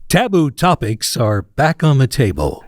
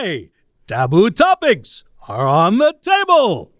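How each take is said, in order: First: It is said in a radio announcer voice. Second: It is said in a cartoon bear voice.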